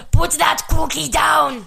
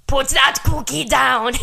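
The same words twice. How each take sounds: First: Higher, slow shouted Arnold line; Schwarzenegger impression. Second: Slow, louder Arnold one-liner; Schwarzenegger impression. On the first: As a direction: bark it like Arnold. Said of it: "here's some good quotes from the movie". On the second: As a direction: deliver it like Arnold. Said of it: "Arnold Schwarzenegger has some good one-liners".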